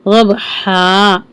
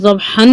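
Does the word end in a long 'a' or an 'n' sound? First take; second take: long a; n sound. First: The word ends in a drawn-out long 'a'. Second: The word ends in an 'n' sound. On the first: The speaker calls it right. "हा की आवाज को वाज़ेह करें। टू count करके लंबा करेंगे" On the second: The speaker calls it wrong. "ज़बहन नहीं बोला है"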